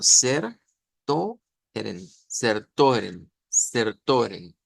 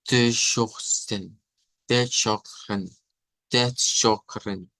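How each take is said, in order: First: "ser, to, eren" read letter for letter with plain S and T; syllable-by-syllable literal reading of "ser, to, eren"; literal misreading. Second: "Teschochen" slowly, starting TS, with SH in the middle; teacher's slow "Teschochen" with J-like R; corrected German pronunciation. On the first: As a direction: say "ser, to, eren" as spelled, Spanish sounds. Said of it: "si leemos literalmente lo que está ahí". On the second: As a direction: say "Teschochen" drawn out, stress on "scho". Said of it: "nos saldría como". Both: Shown as a demonstration.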